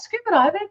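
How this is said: It is said with lively, excited energy. The listener encourages and shows interest. "give that a bit more energy"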